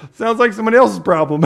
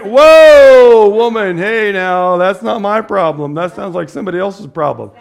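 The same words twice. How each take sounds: First: Higher, louder and fast; quick, amused Jesus. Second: Much higher and louder, then settling back down; a big mock protest, fading toward plain; hammed-up Jesus. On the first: Retold or imitated. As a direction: toss it off quickly, half-laughing. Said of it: "Jesus is saying". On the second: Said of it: "But Jesus is like".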